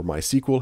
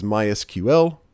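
First: "My S Q L" said as "my sequel"; "My S Q L" pronounced "my SEE-kwul", not spelled out; sequel pronunciation. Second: "My S Q L" with S, Q, L spelled out as letters; "My S Q L", each of the last three letters named separately; letter-by-letter pronunciation. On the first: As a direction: read the letters in "My S Q L" as one word, "sequel". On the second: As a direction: say "My S Q L" as "my ess-cue-ell". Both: Shown as a demonstration. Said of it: "however you like to pronounce it".

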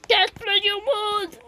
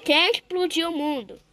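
First: The repeated question, now crying out; shouted cry. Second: Said in the usual way. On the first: Acted. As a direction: yell the question like a wail.

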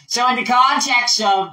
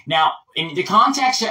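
First: Higher American politician voice; in-character speech. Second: Said in the usual way. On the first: Shown as a demonstration. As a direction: lift it into the candidate's voice. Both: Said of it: "I'm gonna speak later".

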